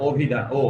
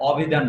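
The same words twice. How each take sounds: First: অভিধান starting on a closed "o", then ও alone; correct pronunciation. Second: অভিধান starting on an open "aw"; wrong pronunciation demo. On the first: Teacher correcting students, অভিধান opening with an ও sound. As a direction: round the first vowel of অভিধান to ও, then isolate it. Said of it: "ও এর মতো হয়েছে". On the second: Teacher showing students the wrong অভিধান, open first vowel. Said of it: "অভিধান না, অভিধান". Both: Shown as a demonstration.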